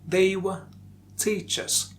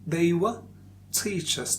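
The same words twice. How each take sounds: First: 'Were' has a short, reduced schwa vowel. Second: 'Were' has a short, reduced schwa vowel.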